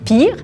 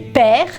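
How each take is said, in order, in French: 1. La voyelle est un son « ee » long. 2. La voyelle est un son « e » ouvert. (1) "comme on pense qu'on le dirait en anglais" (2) "on prononce père comme ça s'écrit"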